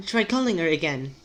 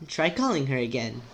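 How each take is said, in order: First: Put-on British accent, a little overdone; overcooked British character voice; too-British voice. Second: Put-on character voice with toned-down British accent; same line, less affected British. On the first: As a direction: lean too far into British. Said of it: "Ah, it's sounding too British". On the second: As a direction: ease off the British. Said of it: "I need to make her".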